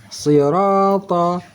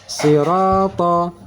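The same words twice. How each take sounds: The two takes are said the same way.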